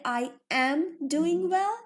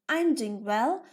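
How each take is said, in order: First: It uses the full form, I am. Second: It uses the contracted form, I'm. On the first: The speaker calls it wrong. "Don't say I am doing well" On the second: The speaker calls it right. "Say it like this"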